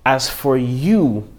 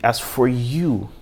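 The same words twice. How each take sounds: First: "As for you" drawn out slowly, each word weighted; slow emphatic reading. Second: Said in the usual way. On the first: Shown as a demonstration. Preacher to congregation, slowing "As for you" for weight. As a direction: let "As for you" land slowly so it rings. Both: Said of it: "this is where it needs to ring in your head".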